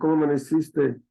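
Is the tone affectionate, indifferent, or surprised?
indifferent. It is said seriously and with indifference. The speaker no longer cares much. "¿Cómo amaneciste con seriedad, indiferencia?"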